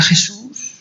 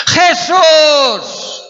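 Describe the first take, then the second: First: Small, high, timid call; mock a meek, polite little call; tiny little voice. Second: Very high, loud, drawn-out cry; desperate shout. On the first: Preacher mocking how the blind man didn't call, tiny voice. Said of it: "dijo así una vocecita". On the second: Acted. Blind man calling Jesus as he passes, desperate shout. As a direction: yell the name with all you have. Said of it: "A gritar".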